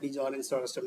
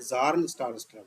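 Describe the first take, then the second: First: The first name begins with a B sound. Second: The first name begins without a B sound. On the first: The speaker calls it wrong. "बिजॉर्न star scrub नहीं है" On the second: The speaker calls it right. "बी silent"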